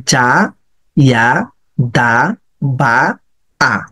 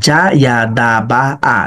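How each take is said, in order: First: জা, ইয়া, দা, বা, আ each drawn out, pauses between; slow syllable-by-syllable. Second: "জা ইয়া দা বা আ" linked in one unbroken run; joined-up reading. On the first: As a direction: sound out every letter on its own. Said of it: "এভাবে দুই তিনবার পড়ে". (ধীরে ধীরে আলাদা আলাদা করে) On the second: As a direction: run the syllables together evenly, no pauses. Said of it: "এখন পড়াটাকে আপনি স্প্লিট করেন". (একটানা মিলিয়ে পড়া) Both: Shown as a demonstration.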